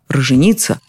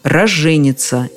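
First: The stress falls on the third syllable. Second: The stress falls on the first syllable. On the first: The speaker calls it wrong. "Используют даже и такой экзотический вариант" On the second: The speaker calls it right. "Но правило сурово и однозначно"

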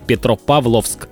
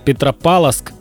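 First: The 'v' before the final 'sk' is pronounced. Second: The 'v' before the final 'sk' is dropped. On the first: The speaker calls it right. "нужно говорить Петропавловск, обязательно «ВС»" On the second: The speaker calls it wrong. "все говорят Петропавловск, ну, через «СК»"

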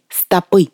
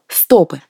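First: The stress is on the last syllable. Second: The stress is on the first syllable.

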